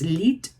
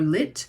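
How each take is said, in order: First: The vowel is long, like 'leet'. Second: The vowel is short, like 'lit'. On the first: "if the I in French is long" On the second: "or short"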